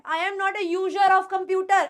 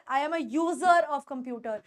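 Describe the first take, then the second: First: User with a j, "yoo-jar"; wrong pronunciation of user. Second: User with a z, "yoo-zer", slower and lower; correct pronunciation of user. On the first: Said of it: "तो ये यूजर नहीं है". (user को गलत "यूजर" ज से बोलते हुए) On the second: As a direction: say user with a buzzing z. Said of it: "ज़ेड के नीचे बिंदु आएगा". (user का सही उच्चारण "यूज़र") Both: Shown as a demonstration.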